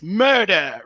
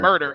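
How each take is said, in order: First: It is said in an English accent. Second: It is said without an English accent. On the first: The speaker calls it right. "how to say words in uh, in an English accent" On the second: The speaker calls it wrong. "It's not"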